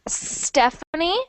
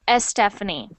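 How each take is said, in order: First: The word starts directly with the s sound. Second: The word starts with an added eh vowel. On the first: The speaker calls it right. "it should sound like Stephanie" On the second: The speaker calls it wrong. "not Estefany"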